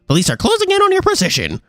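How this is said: It is said in a put-on bird character voice.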